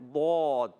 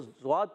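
First: The letter name starts with an emphatic d. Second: The letter name starts with a z sound. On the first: The speaker calls it right. "آپ نے صحیح تلفظ پڑھنا ہے" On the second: The speaker calls it wrong. "بعض بچے اس کو زواد پڑھ دیتے ہیں"

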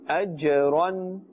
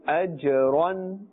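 Both takes have the same delivery.

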